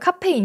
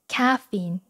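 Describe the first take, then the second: First: It is said as a Korean loanword. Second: It is said with English pronunciation. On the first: The speaker calls it wrong. "이렇게 발음하진 않죠" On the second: The speaker calls it right. "caffeine 이렇게 발음합니다"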